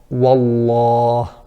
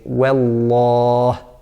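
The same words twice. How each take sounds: First: The w is said thick and heavy. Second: The w is said thin and light. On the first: The speaker calls it wrong. "a mistake would be to say" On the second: The speaker calls it right. "So we say"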